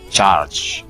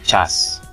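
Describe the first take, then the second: First: The word ends with a 'ch' sound. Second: The word ends with an 's' sound. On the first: The speaker calls it right. "Jadi yang benar adalah charge" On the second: The speaker calls it wrong. "Yang salah cas"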